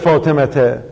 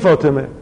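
First: The name ends with an audible t sound. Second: The name ends in a vowel with no t. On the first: This is the careful, exact reading. "موقعی که بخوایم دقیق بخونیم" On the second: This is the ordinary everyday reading. "در حال عادی میگیم فاطمه"

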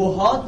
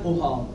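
First: The word begins with a w sound. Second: The word begins with a glottal stop. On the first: This is the form expected by the rule. "وهاد رو میگن اوهاد" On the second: This is the form the Arabs actually use. "همزش میکنن"

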